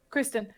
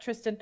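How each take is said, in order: First: "Kristen", starting with a K; self-corrected name. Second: "Tristan", starting with a T; name slip. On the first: Customer fixing the merchant's name, "Kristen" with an opening K. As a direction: say "Kristen" softly, KRIS-ten. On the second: Customer misnaming the merchant, "Tristan" with an opening T. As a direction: say "Tristan" low and soft, TRIS-tan. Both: Real, not acted. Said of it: "sorry, I'm terrible with names".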